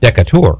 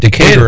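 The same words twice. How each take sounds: First: It is said with a French pronunciation. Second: It is said with an American English pronunciation.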